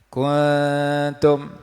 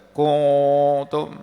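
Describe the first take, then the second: First: The nasal hum is thin and light. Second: The nasal hum is heavy and dark. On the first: The speaker calls it right. "maka dengung dibaca nipih" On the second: The speaker calls it wrong. "tak baca"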